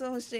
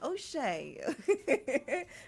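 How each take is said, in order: First: The name is said in the speaker's usual accent. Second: The name is said in a British accent. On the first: "but that's Oshe" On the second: "British accent"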